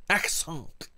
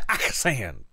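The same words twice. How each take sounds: First: "Accent" said the French way, ending "-on"; "Accent" pronounced as in French, nasal end. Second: "accent" trailing off; "accent" half French, fading; first "accent". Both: Shown as a demonstration. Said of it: "outrageous French accent".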